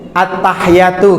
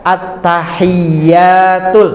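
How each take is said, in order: First: A sound is cut off without a vowel. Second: The sounds are fully voweled, not cut off. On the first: The speaker calls it wrong. "Menjadikan bacaan hanya itu sukun" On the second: The speaker calls it right. "ternyata indah"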